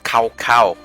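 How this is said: The name is said with an American pronunciation. The speaker calls it wrong. "that's the bad American way of saying it"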